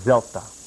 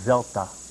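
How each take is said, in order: No difference in how they are said.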